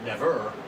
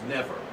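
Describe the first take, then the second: First: The stress is on the second syllable. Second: The stress is on the first syllable. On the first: The speaker calls it wrong. "not never" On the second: The speaker calls it right. "It's never. Dum-dee"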